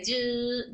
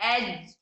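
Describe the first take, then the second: First: The j sound is drawn out and prolonged. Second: The j sound is stopped abruptly and held. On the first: The speaker calls it wrong. "लंबा नहीं कर रहे" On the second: The speaker calls it right. "इसमें आवाज को रोक रहे हैं"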